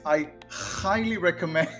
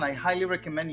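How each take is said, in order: First: The h in highly is a rough throaty ch. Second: The h in highly is a soft breathy sound. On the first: "somehow it came out sounding like this" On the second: "I'll say it again"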